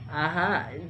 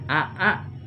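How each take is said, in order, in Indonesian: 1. Hamzah kedua dilembutkan dan diseret. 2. Kedua hamzah diucapkan dengan tegas. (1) "langsung diseret" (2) "bukan aa"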